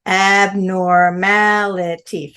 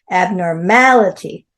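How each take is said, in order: First: "Abnormality" said slowly, each syllable set apart; five slow syllables. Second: "Abnormality" at normal pace, the stress landing on "ma". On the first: Teacher to the class, spelling out Abnormality in slow syllables. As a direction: stretch "Abnormality" out into five clear beats. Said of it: "Five syllables". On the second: Teacher modelling for students, stress on the ma of Abnormality. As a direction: say "Abnormality" and hit the "ma" syllable. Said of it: "Stress on the M A". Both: Shown as a demonstration.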